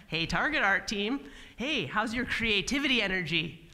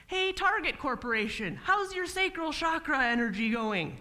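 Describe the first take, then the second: First: Said in the usual way. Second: Higher, eager mock pitch of chakra talk; hippie pitch to a client. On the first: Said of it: "Yes, they like that word". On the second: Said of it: "Uh, what?".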